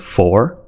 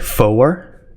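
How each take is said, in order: First: The first syllable is said plainly. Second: The first syllable is emphasized. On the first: It is the everyday way of saying the number. "instead of four" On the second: It is the radio way of saying the number. "just emphasizing that first syllable"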